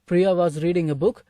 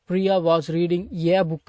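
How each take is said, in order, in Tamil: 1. 'Reading' மற்றும் குறுகிய 'a' சேர்ந்து சொல்லப்படும். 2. 'Reading' மற்றும் முழு 'ay' தனித்தனியாக சொல்லப்படும். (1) "இது சேர்த்து தான் உச்சரிக்கணும்" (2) "அப்படின்லாம் பேசக்கூடாது"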